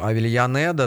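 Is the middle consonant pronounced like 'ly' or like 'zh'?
ly. The middle consonant sounds like 'ly'. This follows standard classical Spanish. "по правилам классического испанского"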